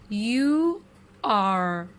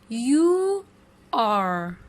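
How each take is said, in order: The two takes are said the same way.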